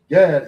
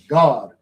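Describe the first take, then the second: First: The vowel sounds like the one in 'cat'. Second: The vowel sounds like the one in 'father'. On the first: This is the usual English way of saying it. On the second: This is how it is said in Hebrew.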